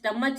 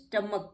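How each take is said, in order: First: The word ends with a 'ch' sound. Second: The word ends with a 'k' sound. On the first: The speaker calls it wrong. "स्टमच नहीं कहते इसको" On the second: The speaker calls it right. "स्टमक कहते हैं"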